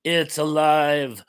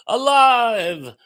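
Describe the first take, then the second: First: Said in the usual way. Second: "Alive" cried out higher and louder; hammed-up Frankenstein triumph; a loud movie-quote yell; mock mad scientist shout. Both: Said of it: "David says".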